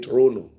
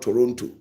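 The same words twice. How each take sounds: First: The second T is left silent. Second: The second T is clearly pronounced. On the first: The speaker calls it right. "We should say Toronto" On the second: The speaker calls it wrong. "it's not Toronto"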